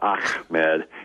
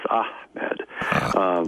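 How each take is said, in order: First: The H is a plain English h. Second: The H is a breathy, throaty h. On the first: The speaker calls it wrong. "It's not Ahmed" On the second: The speaker calls it right. "It's Ahmed"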